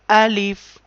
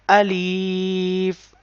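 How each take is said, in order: First: The word is said quickly with a short vowel. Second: The word is said with a long, stretched vowel. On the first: The speaker calls it right. "Alif in quick sound" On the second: The speaker calls it wrong. "we cannot stretch this letter like Alif. So, this sound is wrong sound"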